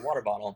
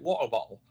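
First: It is said in an American accent. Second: It is said in a British accent.

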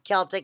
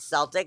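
First: The word begins with a hard K sound. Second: The word begins with a soft S sound. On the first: The speaker calls it right. "it's Celtic" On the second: The speaker calls it wrong. "and not Celtic"

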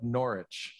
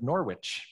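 First: The W in the middle is silent. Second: The W in the middle is pronounced. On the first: "back in England, they forget that W" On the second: "When I was from the Midwest, I naturally would have pronounced this"

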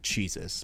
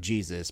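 First: The word is said in an imitated pronunciation. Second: The word is said in a plain, ordinary pronunciation. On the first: "but Jesus, because that's how they say it" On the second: "not Jesus"

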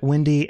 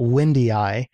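First: The name is said with two syllables. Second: The name is said with three syllables. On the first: "Pretty sure they pronounced it Windy" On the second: "and not Windy-I"

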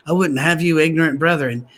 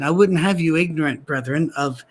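First: Ignorant brethren runs together as one phrase. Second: Brethren is set apart from ignorant by pauses.

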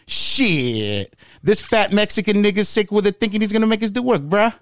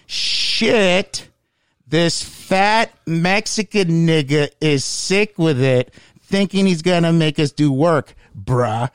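First: It is said fast and very loud. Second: It is said slowly and deliberately.

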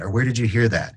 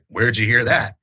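First: It sounds earnest and non-confrontational. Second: It sounds combative and accusatory.

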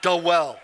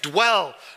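First: An extra vowel separates the d and w. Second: The d and w are joined directly. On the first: The speaker calls it wrong. "not duh well" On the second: The speaker calls it right. "there's nothing between the D and the W"

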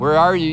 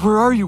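First: The voice sounds angry and threatening. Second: The voice sounds scared and panicked. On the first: God is ready to punish them. "Was God angry when he said, "Where are you?" Was he ready to discipline?" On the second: God is afraid something terrible happened. "Was God scared?"

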